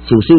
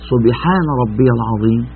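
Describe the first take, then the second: First: It is rushed and slurred into a short mumble. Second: Every word is said clearly and unhurriedly. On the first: The praise is rushed without proper care. The speaker calls it wrong. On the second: The praise is said with proper care. The speaker calls it right.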